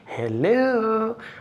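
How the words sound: The greeting sounds warm and affectionate. The speaker is talking to a loved one. "there's a loved one"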